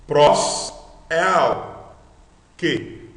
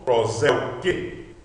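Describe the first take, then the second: First: Loud, separate syllables with gaps; syllables apart. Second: "prós, el, que" run together; one unit of sound. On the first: Teacher splits compound word, syllables loud and apart. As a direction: punch out "prós", "el", then pause before "que". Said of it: "Ou você lendo tudo numa unidade de som". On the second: Teacher reads the compound whole, as one unit of sound. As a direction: join the syllables into one word. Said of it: "lendo tudo numa unidade de som". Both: Shown as a demonstration.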